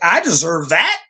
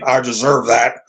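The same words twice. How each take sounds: First: It sounds unsure, rising like a question. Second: It sounds entitled and demanding.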